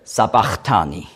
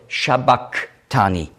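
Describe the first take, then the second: First: It begins with s and has a ch sound. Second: It begins with sh and has a k sound. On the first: The speaker calls it wrong. "vielleicht hat jemand in seiner Bibel gelesen" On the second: The speaker calls it right. "gemeint ist ein Sch ... ausgesprochen als K"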